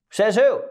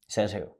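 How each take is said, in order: First: Higher, louder defiant demand; defiant challenge. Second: Softer, lower, under the breath; a soft, low repeat of Says who?; quiet rhetorical echo. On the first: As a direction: throw the challenge out hard. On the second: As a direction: let it drop quietly to yourself. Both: Shown as a demonstration.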